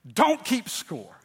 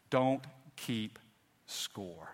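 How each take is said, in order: First: Don't keep score, slow and stressed; slow emphatic repeat. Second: Said in the usual way. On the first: Shown as a demonstration. Preacher repeats his third point to the congregation, slow and stressed. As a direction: lean on Don't, stretch it out. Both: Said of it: "Number three".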